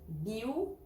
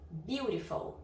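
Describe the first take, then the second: First: "Beautiful" broken into three sounds with long pauses; syllable by syllable. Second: Said in the usual way. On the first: Shown as a demonstration. Teacher counting vowel sounds for learners, "Beautiful" syllable by syllable. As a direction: split "Beautiful" as "biu... ri... fou". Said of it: "mas são três sons". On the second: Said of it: "São três sons de vogal".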